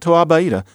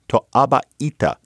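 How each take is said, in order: First: The word flows smoothly without glottal stops. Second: The word is broken up by glottal stops. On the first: The speaker calls it wrong. "Not To'aba'ita" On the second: The speaker calls it right. "Austronesian languages also have a lot of glottal stops"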